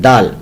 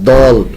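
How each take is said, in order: First: The letter name is said light and thin. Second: The letter name is said heavy and full. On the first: The speaker calls it right. "बल्कि दाल पढ़ते हैं" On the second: The speaker calls it wrong. "दाल कभी पुर नहीं होती, दौल नहीं पढ़ते आप"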